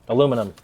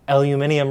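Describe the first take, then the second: First: It is said with four syllables, American style. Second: It is said with five syllables, British style. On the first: The speaker calls it wrong. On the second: The speaker calls it right.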